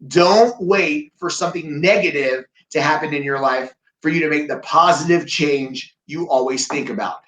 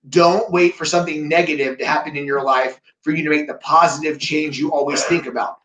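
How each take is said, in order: First: It is said a little more slowly. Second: It is said at a normal pace.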